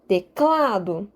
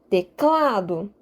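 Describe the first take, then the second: First: The stress is on the middle syllable. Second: The stress is on the middle syllable.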